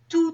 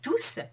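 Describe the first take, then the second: First: The final S is silent. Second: The final S is pronounced. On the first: "dont le S ne se prononce pas" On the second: "dont le S se prononce"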